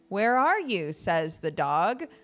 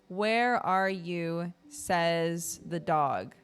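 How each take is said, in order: First: It is read with lively expression. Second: It is read flatly, word by word.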